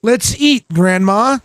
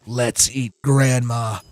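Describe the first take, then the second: First: "Let's eat," rising, bright, clear break before "Grandma"; inviting grandma. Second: "Let's eat Grandma" lower and softer, run together, falling. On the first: Streamer showing the comma version of the sentence as an invitation. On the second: Streamer showing the sinister no-comma version, low. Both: Shown as a demonstration. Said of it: "different meaning depending on how you say it".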